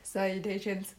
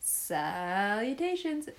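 First: The pitch stays high and level throughout. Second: The pitch dips down and then rises again. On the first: "That's tone one" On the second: "That's tone three"

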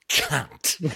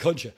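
First: The word ends with a hard, clipped NT sound. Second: The word is spoken with a soft, melodic lilt. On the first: It is a harsh insult. The speaker calls it wrong. "it's the hard delivery of the NT that just gets you" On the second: It is a friendly, casual greeting. The speaker calls it right. "the way I say it, it almost sounds like a song"

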